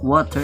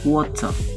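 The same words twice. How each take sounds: First: It is said in an American English accent. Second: It is said in a British English accent. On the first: "what water is for the American English" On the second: "For the British they call, they call it water"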